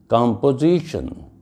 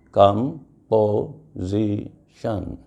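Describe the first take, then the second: First: Said in the usual way. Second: "Composition" split slowly into com, po, si, tion; "Composition" in four slow, separate beats; syllable by syllable. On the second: Shown as a demonstration. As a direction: say "Composition" with a pause after each of its four syllables. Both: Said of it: "the word having four syllables".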